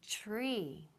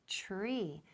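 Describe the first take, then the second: Both takes have the same delivery.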